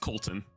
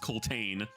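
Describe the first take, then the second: First: The name is said quickly with a reduced second vowel. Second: The name is said slowly with a full second vowel. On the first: "if you say it quickly, it's Colton" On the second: "should be pronounced Coltane"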